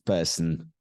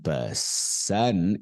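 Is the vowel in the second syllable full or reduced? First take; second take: reduced; full. First: The second syllable has a reduced uh vowel. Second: The second syllable has a full vowel. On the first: The speaker calls it right. "it's person" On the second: The speaker calls it wrong. "It is not person"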